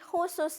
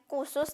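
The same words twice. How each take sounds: First: The first k has a breathy h after it. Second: The first k is plain, without breath. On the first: The speaker calls it right. "Ada H yang nyerempet-nyerempet di huruf K-nya" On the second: The speaker calls it wrong. "bukan khusus"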